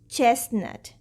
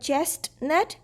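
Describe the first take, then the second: First: The t sound in the middle is silent. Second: The t sound in the middle is pronounced. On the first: The speaker calls it right. "it's chestnut without T" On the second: The speaker calls it wrong. "We commonly mispronounce this word. It's not chestnut"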